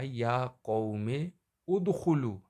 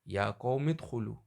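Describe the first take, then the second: First: A glottal catch starts udkhulu as a separate word. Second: The words run together without the glottal catch. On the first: "यहाँ पे असल में था" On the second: "हमज़ा से पहले वाला हर्फ है उसको हमज़ा के बाद वाले हर्फ से मिला के पढ़ना है"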